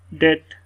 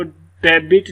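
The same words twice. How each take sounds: First: डेट as one syllable, "det"; डेट with the b dropped; silent b. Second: डेबिट read wrongly with the b pronounced; sounded b. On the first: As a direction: say डेट with no b before the t. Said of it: "B की sound यहाँ पर silent". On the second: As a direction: say डेबिट in two syllables, "de-bit". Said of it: "इसको डेबिट नहीं पढ़ेंगे". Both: Shown as a demonstration.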